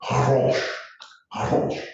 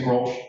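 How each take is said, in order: First: Grolsch with a throaty H, hrolsh; Dutch Grolsch. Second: Grolsch with a hard G, grolsh; Grolsch, hard English G. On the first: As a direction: say Grolsch the Dutch way, guttural onset. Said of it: "They say something like". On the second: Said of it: "we say Grolsch". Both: Shown as a demonstration.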